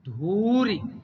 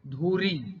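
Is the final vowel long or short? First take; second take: short; long. First: The final vowel is short. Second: The final vowel is long. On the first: The speaker calls it right. "जैसे धूरी ना कि धूरी" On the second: The speaker calls it wrong. "दीर्घ कर दिया जाता है"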